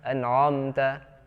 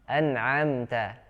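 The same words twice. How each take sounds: First: The ain sound is heavy and thick. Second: The ain sound is light and thin. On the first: The speaker calls it wrong. "hati-hati huruf ain bukan huruf tebal. Jadi jangan dibaca" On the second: The speaker calls it right. "tapi a, a tipis"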